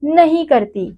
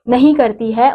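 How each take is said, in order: First: "नहीं" pitched high and pushed hard; teacher's emphatic "नहीं करती"; stress on NAHIN. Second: Said in the usual way. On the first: Shown as a demonstration. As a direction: lean on "नहीं" to correct the idea. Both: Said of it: "पूरी तरह से स्पर्श".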